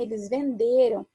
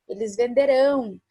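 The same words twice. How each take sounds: First: Venderam with a falling nasal end; teacher's past-tense "venderam"; demonstrating "venderam" against the future. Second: Venderão a little louder, same falling end; teacher's future "venderão"; demonstrating "venderão" after the past form; venderão, future tense. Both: Shown as a demonstration. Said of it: "A pronúncia é próxima".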